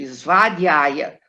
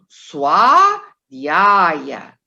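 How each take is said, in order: First: The consonant after the s sounds like v. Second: The consonant after the s sounds like w. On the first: The speaker calls it wrong. "as pessoas costumam fazer isso" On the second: The speaker calls it right. "esse V tem som de U"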